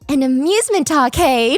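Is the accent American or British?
British. It is said in a British accent.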